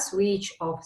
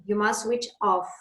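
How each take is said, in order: First: "switch off" with the stress on "switch"; wrong stress on switch. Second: "switch off" with the stress on "off". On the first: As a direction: hit "switch" hard, the wrong way. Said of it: "not switch off". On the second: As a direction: lean on "off", not "switch". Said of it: "the stress always goes on preposition". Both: Shown as a demonstration.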